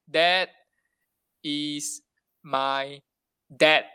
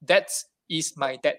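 First: The last word ends with a voiced D sound. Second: The last word ends with a voiceless T sound. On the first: "there's a sentence like this" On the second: "in German setting, they'll read the sentence like"

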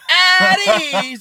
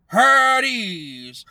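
First: The word is said much louder. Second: The word is said at normal volume. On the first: A stronger call for attention after being ignored. "I need to say it louder" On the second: A first call for attention that gets ignored. "someone would just go"

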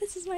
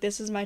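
First: It is spoken in a high head voice. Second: It is spoken in a low chest voice. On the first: "this is my head voice" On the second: "this is my chest voice"

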